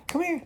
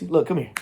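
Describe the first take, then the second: First: High-pitched dog call. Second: Said in the usual way. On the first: Real, not acted. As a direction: jump way up into a squeaky sweet call. Coaxing dog to come over.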